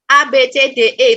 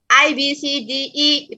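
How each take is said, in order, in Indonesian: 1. Huruf-huruf dilafalkan dengan lafal Indonesia. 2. Huruf-huruf dilafalkan dengan lafal Inggris. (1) "itu Indonesia" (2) "itu Inggris"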